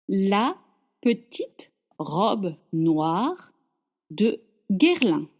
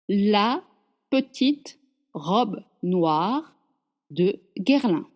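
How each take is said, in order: The two takes are said the same way.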